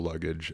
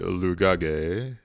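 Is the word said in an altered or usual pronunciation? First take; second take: usual; altered. First: The word is said with its ordinary pronunciation. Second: The word is said with a jokey, altered pronunciation.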